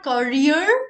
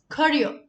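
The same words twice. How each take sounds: First: The final R sound is pronounced. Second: The final R sound is silent. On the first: The speaker calls it wrong. "not career" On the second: The speaker calls it right. "the last letter R, where you roll your tongue, is silent"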